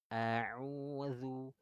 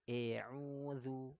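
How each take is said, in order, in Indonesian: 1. Vokal pertama adalah bunyi a yang jelas dan sedang. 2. Vokal pertama adalah bunyi e yang tipis. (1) "buka mulutnya itu pertengahan saja, mutawassid" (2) "Kalau kurang bukaannya gini... yang harusnya vokalnya a, jadinya eu"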